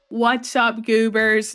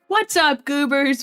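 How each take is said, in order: First: The greeting is said flatly, without much excitement. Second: The greeting is said with more excitement.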